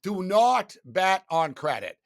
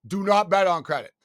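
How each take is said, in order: First: "not" leaned on, slow and firm; slow, firm "Do not bet on credit", weight on "not"; stress on not. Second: "not" stressed again, a bit louder; repeated, firmer. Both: Shown as a demonstration. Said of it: "You know, you know what I mean?".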